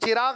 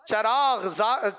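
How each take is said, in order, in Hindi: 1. पहला स्वर 'i' है। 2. पहला स्वर 'a' है। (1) "चिराग नहीं है" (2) "चे पे जबर है"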